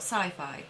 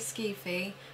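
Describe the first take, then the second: First: The first vowel sounds like 'eye'. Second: The first vowel sounds like 'ee'. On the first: This is the ordinary reading of the spelling. The speaker calls it wrong. "not sci-fi" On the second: This is the required nickname. The speaker calls it right. "it's a rule that it has to be Skeefy"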